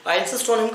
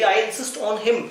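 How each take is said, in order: First: Said in the usual way. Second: Very slow, word by word; slow dictation. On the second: Shown as a demonstration. Teacher repeating the phrase to students, very slow. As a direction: drag each word for the class.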